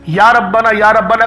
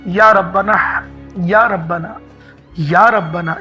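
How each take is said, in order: First: It is said flatly, without warmth. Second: It is said warmly, with love.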